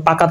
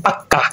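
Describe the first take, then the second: First: Said in the usual way. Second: পাক্কা with k doubled; doubled consonant. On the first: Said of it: "দুইবার দেখি". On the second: Shown as a demonstration. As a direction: hold the k in পাক্কা before the vowel. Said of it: "ব্যঞ্জনের দ্বিত্ব উচ্চারণ হয়".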